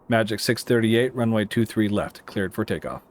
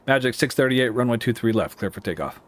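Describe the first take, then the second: First: The phrase is spoken more slowly. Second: The phrase is spoken quickly.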